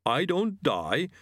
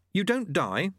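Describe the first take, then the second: First: Slow, high creature voice; yeti echo. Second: "You don't die?" high and rising; puzzled question. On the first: Yeti repeating the student's question back, slowly. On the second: Student checking with the yeti, puzzled rising "don't die". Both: Acted.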